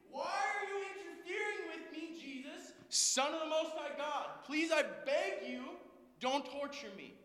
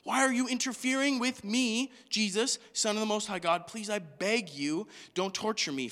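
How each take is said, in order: First: High, hushed pretend scream; strangled far-off wail, begging for mercy; mock screamed plea. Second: Said in the usual way. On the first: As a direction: scream it under your breath, very high and soft. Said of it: "He screamed".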